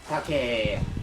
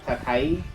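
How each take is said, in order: First: The word ends with a long 'eh' sound. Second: The word ends with an 'ai' sound. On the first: "it becomes like a like an elongated eh" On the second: "instead of saying like"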